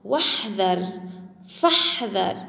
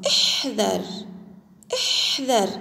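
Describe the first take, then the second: First: "واحذر، فاحذر" run together as "wahdhar, fahdhar"; silent connecting hamza. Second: "احذر" said alone, starting on a short i; word-initial hamza demo. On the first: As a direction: glide from the prefix straight into h, no glottal stop in "واحذر، فاحذر". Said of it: "همزة غير منطوقة". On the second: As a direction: say "احذر" by itself, opening on "ih". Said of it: "تكتب ولا تلفظ". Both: Shown as a demonstration.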